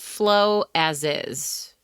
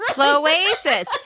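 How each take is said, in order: First: It is said as three separate words. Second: It is said as one blended word. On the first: The speaker calls it wrong. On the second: The speaker calls it right.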